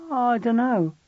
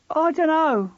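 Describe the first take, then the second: First: Put-on higher boy's voice, mumbled; sulky teen boy. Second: Put-on higher, louder boy insisting; louder, insistent. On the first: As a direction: shrug it off like a sullen boy. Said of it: "George insisted". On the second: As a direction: dig in and push back louder. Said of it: "getting louder". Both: A narrator's reading.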